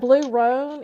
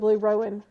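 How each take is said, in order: First: The last word is said as roan. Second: The last word is said as rowan. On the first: The speaker calls it right. "no, it's a blue roan" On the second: The speaker calls it wrong. "is a blue rowan"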